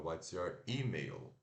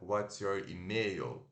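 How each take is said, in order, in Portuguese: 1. A tônica de 'email' fica na primeira sílaba. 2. A tônica de 'email' fica na segunda sílaba. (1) "é what's your email" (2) "Não é what's your email"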